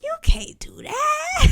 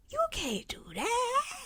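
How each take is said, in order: First: High, whispered hammed-up cry; hiss-shout it in mock despair. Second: High, soft, hammed-up sob; mock crying plea. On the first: Second take, shout-whisper. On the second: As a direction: whimper it like a wounded diva. First take, crying softly.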